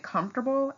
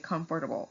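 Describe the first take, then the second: First: Some syllables are dropped, making the word shorter. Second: Every syllable of the word is clearly pronounced. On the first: "for some people, they will say comfortable" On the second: "because that's technically how you should say it"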